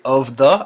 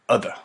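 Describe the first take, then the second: First: Both words are pronounced fully and separately. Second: The words are reduced and blended into one. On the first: The speaker calls it wrong. "I don't say of the" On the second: The speaker calls it right. "I say other"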